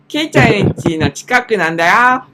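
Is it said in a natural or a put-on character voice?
put-on. It is said in a put-on voice for Takuo-san.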